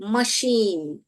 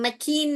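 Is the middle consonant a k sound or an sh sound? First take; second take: sh; k. First: The middle consonant is an sh sound. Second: The middle consonant is a k sound. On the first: The speaker calls it right. "मशीन बोलते हैं हम" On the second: The speaker calls it wrong. "हम मकीन नहीं बोलते हैं"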